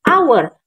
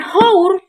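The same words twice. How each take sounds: First: The word starts with a vowel, h silent. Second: The word starts with an audible h sound. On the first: The speaker calls it right. "Karena kita membacanya hour" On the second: The speaker calls it wrong. "bukan hour"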